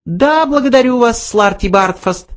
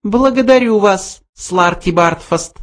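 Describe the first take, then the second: First: High, casual little mouse voice; offhand mouse. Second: High voice, coolly cutting him off; cold mouse. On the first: Mouse thanks the old man, offhand high voice. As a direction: brush him off lightly, pitched high. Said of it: "небрежно произнёс Бенджи". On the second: Mouse cuts off the protesting old man, cold high voice. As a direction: end it coldly in a high mouse voice. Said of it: "холодно отрезал Бенджи". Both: A narrator's reading.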